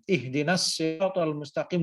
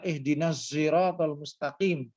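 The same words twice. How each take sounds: First: Siratal begins with a heavy s sound. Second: Siratal begins with a z sound. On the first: "dengan menggunakan so" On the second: "Logat Mesir dan menggunakan za"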